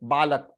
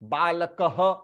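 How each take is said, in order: First: The word ends plainly with no breathy echo. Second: The word ends with a breathy h echo. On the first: The speaker calls it wrong. "You can not से बालक" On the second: The speaker calls it right. "All together. बालकः"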